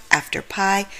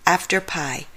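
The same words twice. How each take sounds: The two takes are said the same way.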